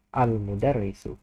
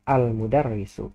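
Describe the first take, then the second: The two takes are said the same way.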